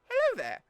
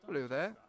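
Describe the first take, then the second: First: It is said in a put-on character voice. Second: It is said in his normal voice.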